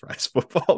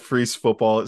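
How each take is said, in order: First: The first word sounds like French fries. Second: The first word sounds like freeze. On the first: The speaker calls it right. "I always say Fries Football" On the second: The speaker calls it wrong. "that doesn't even sound right to me"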